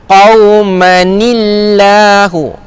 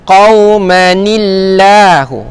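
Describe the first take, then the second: Both takes have the same delivery.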